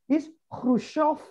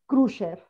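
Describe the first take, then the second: First: It is said with a Russian pronunciation. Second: It is said with an English pronunciation. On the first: The speaker calls it right. "No, it's not Khrushchev. It's Khrushchev because plus was the, the e with two the e with two points" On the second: The speaker calls it wrong. "people say, uh, for instance"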